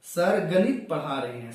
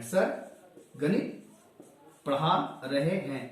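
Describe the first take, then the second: First: Said in the usual way. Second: गणित drawn out very slowly, the rest slow; stress on गणित. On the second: Shown as a demonstration. Teacher slowly repeats sir गणित पढ़ा रहे हैं to highlight गणित. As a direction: linger on गणित to point out the object. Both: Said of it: "अब यहां पता चल रहा".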